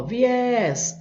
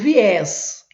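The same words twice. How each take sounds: First: "viés" with the final ÉS drawn out; teacher stretching ÉS in "viés"; stressed syllable held. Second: Said in the usual way. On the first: Shown as a demonstration. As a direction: hold the É of "viés" long to show the strong syllable. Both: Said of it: "sílaba forte".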